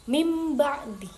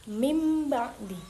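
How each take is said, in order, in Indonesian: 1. Nasal sebelum b dibaca m. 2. Nasal sebelum b dibaca m.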